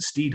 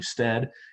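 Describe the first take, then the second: First: The vowel is a long 'ee' sound. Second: The vowel is a short 'e' sound. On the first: The speaker calls it wrong. "pronounced the Stead Family Children's Hospital name wrong. He said Steed" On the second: The speaker calls it right. "it's actually Stead"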